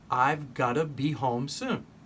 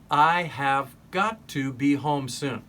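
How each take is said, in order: First: The words are linked into a reduced form. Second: Each word is said fully and separately.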